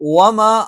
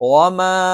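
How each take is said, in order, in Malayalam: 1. അവസാന സ്വരത്തിന് അതിന്റെ സാധാരണ ഹ്രസ്വ ദൈർഘ്യമാണുള്ളത്. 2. അവസാന സ്വരം നീട്ടി ദീർഘമായി ഉച്ചരിക്കുന്നു. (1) "വമാ എന്നല്ലേ സാധാരണ" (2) "ആ എന്ന് നീട്ടാനുള്ള മൂന്ന് അലിഫിന്റെ കണക്കനുസരിച്ച് ... നീട്ടണം"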